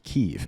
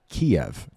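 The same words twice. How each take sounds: First: The city name has its newer pronunciation. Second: The city name has its older pronunciation. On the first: This is the name as it is now promoted. "to Kiev" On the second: This is the name as it used to be said. "changing the name of Kiev"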